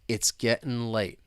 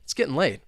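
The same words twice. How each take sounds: First: It is spoken slowly. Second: It is spoken very fast. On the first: "let's say it slowly to begin with" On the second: "let's try and say it, well, super fast"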